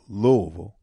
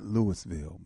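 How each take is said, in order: First: The city name is said in the local way. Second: The city name is said in an outsider's way. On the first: The speaker calls it right. "but Louisville. I got to say that right" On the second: The speaker calls it wrong. "not Louisville"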